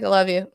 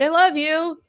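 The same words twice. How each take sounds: First: Offhand reply. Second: Higher, singled-out retold "I love you"; affectionate goodbye. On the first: Retold or imitated. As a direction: imitate a daughter tossing the words back casually. Retold daughter's offhand reply. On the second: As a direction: call out love to a departing daughter, pitched up. Retold mother's goodbye to daughter.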